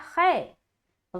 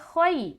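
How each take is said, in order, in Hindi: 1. स्वर दीर्घ 'e' की ध्वनि बन जाता है। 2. संयुक्त स्वर नरमी और कोमलता के साथ बोला जाता है। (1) "अगर कोई पढ़ता है खै, ... गलत है" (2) "हरूफ लीन को नरमी के साथ अदा करना है। तो यहाँ पर हम पढ़ेंगे"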